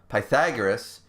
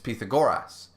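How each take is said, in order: First: The name is said in the Roman-style pronunciation. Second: The name is said in the Greek-style pronunciation. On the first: This is the Latinized form of the name. The speaker calls it wrong. "is actually incorrect" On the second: This is the original form of the name. The speaker calls it right. "Pythagoras being the Greek name"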